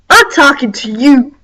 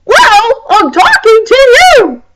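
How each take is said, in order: First: Said in the usual way. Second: Higher-pitched mock comeback; new girl's comeback, higher. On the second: New girl answers the mean girl, higher-pitched comeback. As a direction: toss it back in a higher pitch. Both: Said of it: "And then the new girl said".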